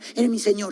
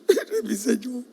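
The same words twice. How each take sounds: First: It is said quickly and plainly. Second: It is said slowly in a sad, tearful voice. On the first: "esa frase se pronuncia rápidamente" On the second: "Se puede decir con lágrimas"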